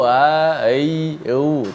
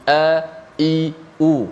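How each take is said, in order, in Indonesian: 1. Setiap vokal dimulai dengan lembut, tanpa hentakan yang kuat. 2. Setiap vokal dimulai dengan hentakan glotal yang tajam dan tertahan. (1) "Tak boleh sebut" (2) "bila sebut mesti"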